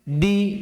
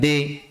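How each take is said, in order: First: The i vowel after d is full. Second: The vowel after d is reduced or missing. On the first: The speaker calls it right. "tunaikan kasrah dengan maksimal" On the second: The speaker calls it wrong. "bukan D"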